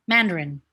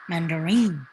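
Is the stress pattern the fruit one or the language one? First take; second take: language; fruit. First: Stressed in the pattern used for the language. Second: Stressed in the pattern used for the fruit. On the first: It names the language. "when it's the language, it's just like Mandarin" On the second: It names the orange fruit. "But when it's the orange, it's Mandarin"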